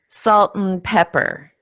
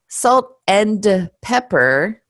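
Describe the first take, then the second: First: The word 'and' shrinks to a short 'n'. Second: The word 'and' is said in full. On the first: The speaker calls it right. "the and becomes mm" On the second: The speaker calls it wrong. "it doesn't flow very nicely"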